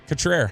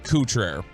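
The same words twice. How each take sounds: First: The name is said with an English pronunciation. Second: The name is said with a French pronunciation. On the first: The speaker calls it right. "But Cutrer, huh?" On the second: The speaker calls it wrong. "Somebody from there pronounced it Cutrer"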